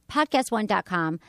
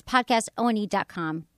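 First: Said in the usual way. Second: "podcastone" with ONE spelled letter by letter, O-N-E; spelling out ONE. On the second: Shown as a demonstration. Host giving listeners the survey address, spelling out "podcastone" as podcast O-N-E. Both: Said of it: "That's podcastone dot com".

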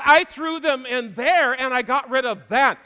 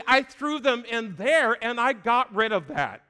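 First: Louder repeat. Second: Said in the usual way. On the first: Shown as a demonstration. Preacher repeating God's words higher and louder. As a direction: repeat it higher and louder, I threw them in there. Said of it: "repeated louder and higher". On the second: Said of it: "repeats the line louder".

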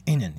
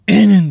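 First: Said in the usual way. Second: Full-lunged yell, much louder; shouting from the lungs. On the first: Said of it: "Dedim ki". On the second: Retold or imitated. Yelling at family to get down the stairs during the quake, all-out shout. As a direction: bellow it with everything you have. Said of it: "Böyle ciğerden ama".

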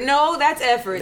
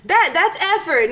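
First: Said in the usual way. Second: That's effort, pitched high and drawn out slowly; stressed insistence. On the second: Real, not acted. Insisting the gift showed effort.

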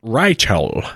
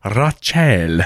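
First: "Rachel" with first vowel as RYE; playful mispronunciation. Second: "Rachel" as "rah-CHELL"; playful mispronunciation. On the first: Co-host toying with the emailer's name, "Rachel" as "RYE-chel". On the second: Co-host trying the emailer's name another way, "Rachel" as "rah-CHELL". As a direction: open AH, then a full CHELL in "Rachel". Second silly pronunciation of name. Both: Pretend.

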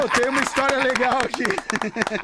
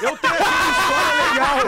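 First: Said in the usual way. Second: Shouted over laughter; louder, laughing through it; loud laughing announcement. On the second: Real, not acted.

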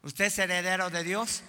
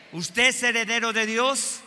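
First: Said in the usual way. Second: Higher and louder, pressing the crowd; louder insistent question; louder repeated question. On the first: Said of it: "repeated question to congregation". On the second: Shown as a demonstration. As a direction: ask it again with force. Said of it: "repeated louder to congregation".

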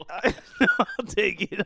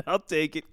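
First: Slow laughing take; I'll take it drawn out laughing. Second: Said in the usual way. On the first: Real, not acted.

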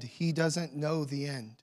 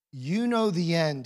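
First: "He" hit first, rest dropping softer; stress on he. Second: "know" leaned on, falling to "the end"; stress on know. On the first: Preacher contrasts with Abraham, stress on "He". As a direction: punch "He", then fall quietly through "doesn't know the end". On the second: Preacher contrasts the reader's view, stress on "know". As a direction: land on "know", let "the end" fall away. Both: Shown as a demonstration.

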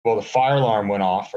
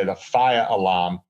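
First: Said in the usual way. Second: Boston accent. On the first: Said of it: "or should I say the fire alarm". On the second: Shown as a demonstration. Podcaster retells the hotel fire alarm in a Boston accent. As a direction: fire alarm said the Boston way as "fiah alahm", no r sounds. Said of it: "or should I say".

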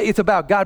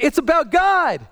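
First: Said in the usual way. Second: High, slow mock scream; imitating a child's scream. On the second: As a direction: squeal it like his small daughter. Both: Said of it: "but she, like, screams".

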